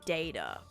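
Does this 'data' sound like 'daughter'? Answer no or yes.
no. The word does not sound like 'daughter'. "now I'll say like data because of that"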